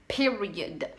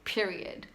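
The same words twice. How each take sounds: First: "Period" repeated with firmer, drawn-out emphasis; emphatic PERIOD. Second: Said in the usual way. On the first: Real, not acted. Actress insisting on two-minute monologues, emphatic "Period". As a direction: land hard on "Period" as the final word.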